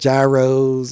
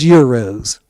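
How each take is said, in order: First: The word begins with a hard consonant sound. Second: The word begins with a soft Y-like sound. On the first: The speaker calls it wrong. "you hear people saying gyros" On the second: The speaker calls it right. "it's euros"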